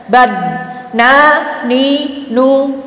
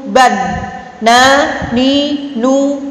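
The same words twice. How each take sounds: No difference in how they are said.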